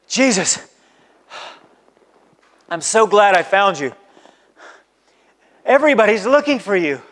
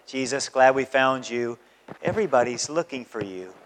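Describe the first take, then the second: First: It is said in an urgent, anxious tone. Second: It is said in a calm, relaxed tone.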